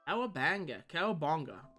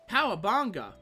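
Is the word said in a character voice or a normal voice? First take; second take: normal voice; character voice. First: It is said in the speaker's normal voice. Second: It is said in an imitated cartoon-character voice. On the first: The speaker calls it wrong. "I'm probably saying that wrong" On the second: The speaker calls it right. "That's better. I had to channel my inner Bart to say that"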